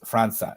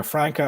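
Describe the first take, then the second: First: "Franca" with an s sound for the C; soft C pronunciation. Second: "Franca" with a hard k sound; hard C pronunciation. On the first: Host offering other reading of the name, soft C. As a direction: say "Franca" as FRAN-suh. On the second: Host unsure of new signing's name, hard C. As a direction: say "Franca" as FRANK-uh. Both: Shown as a demonstration. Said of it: "a little thing under the C".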